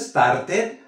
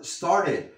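First: The word begins with an added e sound. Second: The word begins directly with an s sound. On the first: The speaker calls it wrong. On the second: The speaker calls it right.

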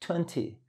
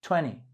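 First: British accent, with the T clearly pronounced. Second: American accent, the T dropped, nearly one syllable. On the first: "Primero británico" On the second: "tienden a omitir la T después de consonantes, entonces veinte se convierte prácticamente en una sola sílaba"

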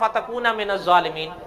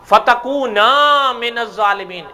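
First: The vowel after the n is short. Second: The vowel after the n is long. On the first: The speaker calls it wrong. "اس نے پڑھا ... الف کھا گیا" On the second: The speaker calls it right. "یہ ہے اس کا صحیح تلفظ"

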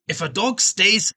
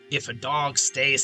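First: It is spoken in a Scottish accent. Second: It is spoken in an American accent. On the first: "No, that's Scottish" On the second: "That's American"

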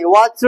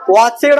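First: The ending is a plain 'd' sound. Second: The ending is an extra 'ed' syllable. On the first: "वॉचड म्हणायचं नाही" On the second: "वॉचेड म्हणायचं नाही"

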